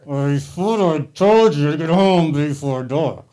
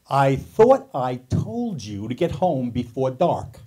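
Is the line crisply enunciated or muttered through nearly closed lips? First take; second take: muttered; crisp. First: It is muttered through nearly motionless lips. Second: Every word is yelled with crisp, precise articulation. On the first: "the ventriloquist stage" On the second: "she would yell at us using perfect diction and articulation"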